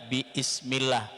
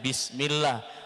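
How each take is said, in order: First: A glottal stop separates bi from ismillah. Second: The syllables run together with no glottal stop. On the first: The speaker calls it wrong. "bukan lagi biismillah" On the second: The speaker calls it right. "hamzahnya tidak dibaca"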